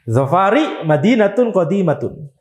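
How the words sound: The first word ends with an i vowel. This follows the Hijazi and majority Banu Tamim dialects. "Kalau akhirnya ro sama seperti Hijazin, mabni alal kasr"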